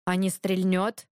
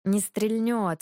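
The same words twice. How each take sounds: First: Slow, cautious, rising at the end; wary question. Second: Matter-of-fact statement, falling at the end; preoccupied reply. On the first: Dragomir asking about the firearm, wary. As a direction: ask it warily, stretching «стрельнёт». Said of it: "Спросил опасливо". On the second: Ivan busy with the firearm, preoccupied. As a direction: answer while absorbed in work. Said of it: "сосредоточенно отозвался Иван". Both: A narrator's reading.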